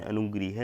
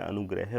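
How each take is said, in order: First: अनुगृह said with ri after g, a-nu-gri-h; अनुगृह said as the wrong ri vowel form. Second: Said in the usual way. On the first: Shown as a demonstration. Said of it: "ये गलत है". (अनुगृह को 'गृ' के साथ, गलत रूप में) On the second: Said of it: "अनुगृह नहीं होता है".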